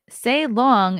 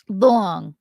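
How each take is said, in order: First: Said in the usual way. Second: "Long" with a drawn, rounded Long Island "aw"; Long Island accent. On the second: Shown as a demonstration. Asked by a chatter, Long Island accent on "Long". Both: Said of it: "say long in your most Long Island accent".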